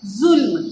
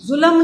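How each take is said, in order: First: जुल्म in one syllable, "जुल्म", no vowel before म; correct pronunciation. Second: जुल्म split into "जुलम" with an added vowel; wrong pronunciation demo. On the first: Teacher giving children the right one-syllable जुल्म. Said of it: "लफ्ज़ क्या है?". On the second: Teacher showing children the wrong "जुलम" for जुल्म. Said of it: "जुल्म नहीं होता". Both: Shown as a demonstration.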